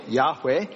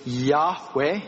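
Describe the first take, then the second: First: Said in the usual way. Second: Yahweh drawn out slowly, rising at the end; carefully spelled-out Yahweh; pronouncing Yahweh. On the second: Shown as a demonstration. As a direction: say Yahweh slow and careful, yah-WEH with a lift. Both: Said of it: "may not even be a correct pronunciation".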